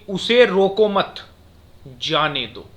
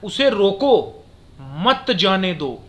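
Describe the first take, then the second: First: The pause comes after मत. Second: The pause comes after रोको.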